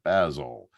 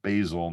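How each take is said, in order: First: The name is said in a British accent. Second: The name is said in an American accent. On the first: It refers to the British comedy character. "not Basil" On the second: It refers to the bourbon. "So back to Basil"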